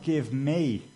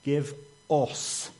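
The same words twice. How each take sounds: First: "me" leaned on as the wrong choice; stress on "me". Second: "us" set apart and emphasised; stress on "us". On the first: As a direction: put the weight on "me" in "Give me". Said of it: "It's not". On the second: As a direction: land firmly on "us" in "Give us". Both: Shown as a demonstration.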